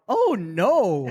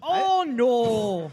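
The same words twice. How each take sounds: First: It is said in a plain accent. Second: It is said in an Irish accent.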